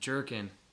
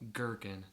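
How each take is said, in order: First: The word begins with a soft J sound. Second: The word begins with a hard G sound. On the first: The speaker calls it wrong. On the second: The speaker calls it right.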